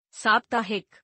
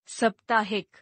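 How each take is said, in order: First: Said in the usual way. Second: साप्ताहिक with short first vowel, "saptaahik"; mispronounced. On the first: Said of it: "शुद्ध". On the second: Shown as a demonstration. Teacher showing a vowel error, mispronounced with short first a. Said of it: "अशुद्ध".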